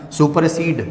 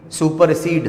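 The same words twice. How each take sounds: The two takes are said the same way.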